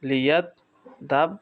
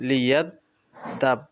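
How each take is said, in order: No difference in how they are said.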